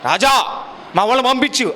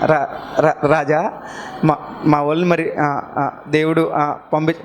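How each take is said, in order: First: It is spoken smoothly in a grave, solemn voice. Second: It is spoken haltingly, with repeated stammered syllables. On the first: This is how a confident man would speak. The speaker calls it wrong. "ఇంత గంభీరంగా" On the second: This is how a man with a stammer would speak. The speaker calls it right. "నత్తివాడు కదండి, ఎలా మాట్లాడు ఉంటాడు"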